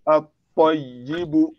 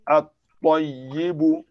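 First: The L is silent and the T is doubled. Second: The same.

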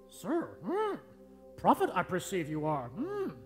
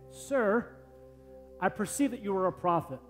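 First: It is said in a Yoda impression. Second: It is said in his normal voice.

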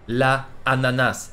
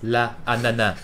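First: The word ends with its final consonant pronounced. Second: The word ends with its final consonant dropped.

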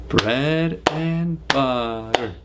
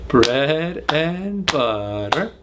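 No difference in how they are said.

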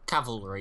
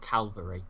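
First: The V comes before the L. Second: The L comes before the V. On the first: The speaker calls it right. "Cavalry, not Calvary" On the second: The speaker calls it wrong. "not Calvary"

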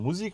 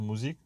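First: The word has an odd, unusual stress. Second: The word has its usual, natural stress. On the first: The speaker calls it wrong. "ein bisschen komisch betont" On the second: The speaker calls it right. "also Musik"

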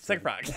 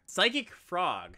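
First: The name is said quickly, run together. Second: The name is said at a normal pace.

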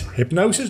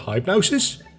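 First: The first syllable sounds like 'hip'. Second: The first syllable sounds like 'high'. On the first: The speaker calls it right. "But it's hypnosis" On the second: The speaker calls it wrong. "I always want to say high hypnosis because I say H and a Y, which just spells high for me, like hype"

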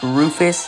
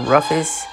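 First: The first vowel is a long 'oo' sound. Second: The first vowel is a short 'uh' sound. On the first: The speaker calls it right. "it's pronounced Rufus" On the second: The speaker calls it wrong. "and not Ruffus"

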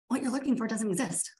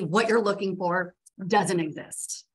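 First: It is said in a neutral, matter-of-fact tone. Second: It is said in a condescending tone. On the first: The speaker calls it right. "here's the reality" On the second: The speaker calls it wrong. "that sounded a little asshole-ish"

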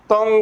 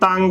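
First: A 'u' vowel with a nasal sound. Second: An 'a' vowel with a nasal sound. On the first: The speaker calls it right. "ਤੱਤੇ ਨੂੰ ਔਂਕੜ ਤੋਂ ਉੱਤੇ ਟਿੱਪੀ" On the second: The speaker calls it wrong. "ਕੱਲਾ ਟਿੱਪੀ ਦੇ ਨਾਲ ਉਚਾਰਨ ਕਰਾਂਗੇ ਤਾਂ ਵੀ ਗਲਤ ਤੰਗ ਬਣੇਗਾ"

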